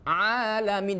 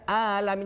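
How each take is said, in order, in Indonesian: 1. Diawali dengan bunyi tenggorokan yang tertekan. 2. Diawali dengan hamzah biasa.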